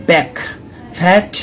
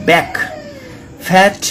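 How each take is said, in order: Both takes have the same delivery.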